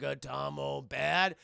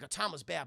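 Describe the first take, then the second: First: Slow, simple-minded question; childlike giant robot. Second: Said in the usual way. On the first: Retold or imitated. Iron Giant asking Hogarth about Atomo, slow and childlike. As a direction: ask it slowly, like a learning giant.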